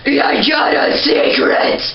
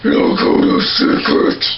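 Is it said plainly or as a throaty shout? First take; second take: shout; plain. First: It is a throaty, shout-like scream. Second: It is said plainly, without a throaty shout.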